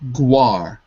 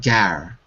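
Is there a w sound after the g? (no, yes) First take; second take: yes; no. First: A w sound follows the g. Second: No w sound follows the g. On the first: The speaker calls it wrong. "it looks like guar" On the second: The speaker calls it right. "we don't say the the U, so it's it's actually gar"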